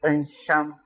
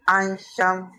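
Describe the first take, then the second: First: "Ansham" slowly, opening on a dull uh; mistaken schwa vowel. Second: "Ansham" with an open ah first; correct first vowel. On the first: Teacher contrasting the wrong form, slow "uhn-sham". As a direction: swap the first ah of "Ansham" for a schwa. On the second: Teacher giving the right form of Ansham, open ah. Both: Shown as a demonstration. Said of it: "not Ansham".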